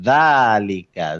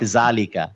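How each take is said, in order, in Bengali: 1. শব্দটি নরম th ধ্বনি দিয়ে শুরু হয়। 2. শব্দটি শক্ত j ধ্বনি দিয়ে শুরু হয়। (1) "না, যালিকা" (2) "নট জালিকা"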